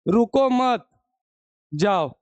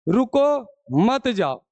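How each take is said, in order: First: The pause comes after 'mat'. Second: The pause comes after 'ruko'.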